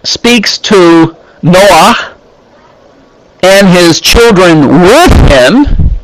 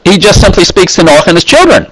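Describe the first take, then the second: First: Slow, leaning on "with him"; slow and weighty, "with him" underlined; stress on with him. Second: Quick throwaway reading; casual fast read, no weight on children; ordinary speech. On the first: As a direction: draw out "speaks to Noah and his children with him", pressing "with". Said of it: "It could have said he just simply speaks". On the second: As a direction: rattle off "he just simply speaks to Noah and his children" fast. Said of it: "in ordinary speech". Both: Shown as a demonstration.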